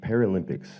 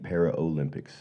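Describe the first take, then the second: First: Para runs straight into lympics, with no o sound. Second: A full o sound follows para, as in Olympics. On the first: The speaker calls it right. "it is the Paralympics" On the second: The speaker calls it wrong. "not the Para-Olympics"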